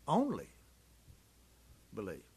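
The stress falls on the word only. The speaker calls it right. "I think the emphasis was on the word only"

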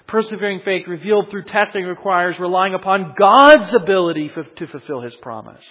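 Several key words are said with strong emphasis.

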